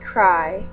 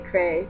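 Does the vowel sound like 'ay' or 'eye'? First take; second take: eye; ay. First: The vowel sounds like 'eye'. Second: The vowel sounds like 'ay'. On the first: "but I say cry" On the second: "sometimes I say crey, because I'm just being stupid"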